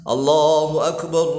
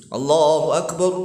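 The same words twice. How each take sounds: The two takes are said the same way.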